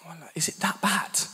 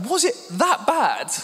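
First: Hushed, breathy question to his wife; whispered worry. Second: High, slow, stretched-out question; mock alarm. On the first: Retold or imitated. Husband whispering to smirking wife during rehearsal, hushed worry. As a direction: whisper it nervously mid-talk. Asking wife mid run-through. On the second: Husband to laughing wife, high mock-alarmed squeak.

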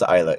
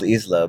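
First: "Isla" pronounced EYE-la; Isla with silent s. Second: "Isla" pronounced IZ-la, s sounded; spelling pronunciation of Isla. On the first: Host correcting co-host, "Isla" as EYE-la. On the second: Host showing the spelling, "Isla" as IZ-la. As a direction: say "Isla" as written, "iz-la". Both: Shown as a demonstration. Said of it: "It's spelled Isla, but".

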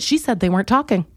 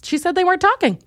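First: Said in the usual way. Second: High-pitched indignant repeat; high insistence. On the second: Real, not acted. Fan insists the rappers weren't talking, high insistence.

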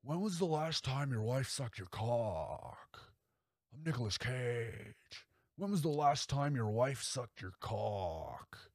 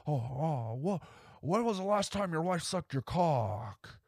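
First: Leaning in slow with a softer menacing drawl; Nicolas Cage impression. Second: Higher, sudden manic Nicolas Cage; spring the question in a high unhinged burst; Nicolas Cage impression. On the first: Serial killer Cage needling the young guest, slow and creepy. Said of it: "He hits him with the". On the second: Cage's killer blurting the question at the guest, high and manic. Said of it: "something purely Nick about that moment".

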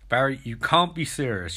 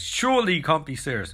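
First: Said in the usual way. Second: Airplane movie quote delivery; Airplane-style deadpan Surely; Airplane line. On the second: Retold or imitated. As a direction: set up the Shirley joke deadpan. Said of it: "don't call me Shirley".

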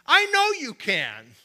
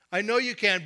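First: "I know you can" said louder, higher and slowly, rising with conviction; emphatic faith. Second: Said in the usual way. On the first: Shown as a demonstration. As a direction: proclaim "I know you can" with bold certainty. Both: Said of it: "is not from God".

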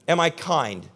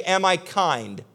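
First: Said in the usual way. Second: Slow earnest question. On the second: Retold or imitated. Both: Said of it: "Go to that person and say".

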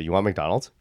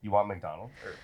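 First: Said in the usual way. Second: Asking mid-sip, drink at the lips; while sipping a drink. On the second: Real, not acted. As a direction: talk around a sip of kombucha. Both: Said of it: "Sorry, I'm drinking my kombucha".

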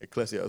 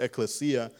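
First: "ekklesia" said ih-KLESS-ee-uh; pronunciation demo. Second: "ecclesia" said ek-leh-SEE-uh; alternative pronunciation. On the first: Preacher showing how you pronounce the Greek word, pronunciation demo. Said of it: "that's how you pronounce it". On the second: Preacher showing how some pronounce the Greek word, alternative pronunciation. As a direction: stress moved to the SEE in "ecclesia". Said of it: "Some pronounce it ecclesia". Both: Shown as a demonstration.

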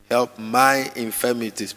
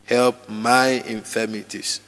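First: Said in the usual way. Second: Slower, drawn out, pleading; slow personal prayer. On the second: Shown as a demonstration. Preacher leading congregation in prayer, slow and personal. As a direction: pray Help my infirmities slowly, as your own. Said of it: "Personalize the prayer".

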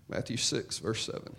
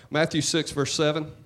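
First: Much softer, almost a whisper; breathy near-whisper repeat of "Matthew six, verse seven"; hushed repeat. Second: Said in the usual way. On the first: Shown as a demonstration.

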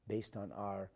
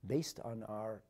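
No difference in how they are said.

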